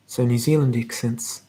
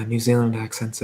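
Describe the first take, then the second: First: New Zealand accent. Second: Said in the usual way. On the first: Shown as a demonstration. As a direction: put on a gentle Kiwi accent. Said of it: "It sounds a bit like this".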